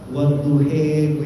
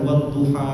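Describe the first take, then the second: First: The final vowel sounds like an 'e'. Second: The final vowel sounds like an open 'a'. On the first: This is another accepted reading. "ada qiraah wadduhe" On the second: This is the common reading. "Misalkan wadduha"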